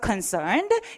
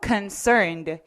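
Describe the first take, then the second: First: The pitch rises on the word. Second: The pitch falls on the word. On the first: The speaker calls it wrong. "이렇게 올리지 마시고" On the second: The speaker calls it right. "해서 내려주시면 되겠습니다"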